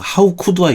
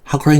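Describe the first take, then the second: First: It is said slowly, each word carefully separated. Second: It is said quickly, the words run together. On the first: The speaker calls it wrong. "한국 사람들은 이제 발음 정확하게 한다고 이걸 갖다가 how could I 이러는데 상대방이 들으면요 기분 되게 나빠요" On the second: The speaker calls it right. "이거 빨리 해야 됩니다"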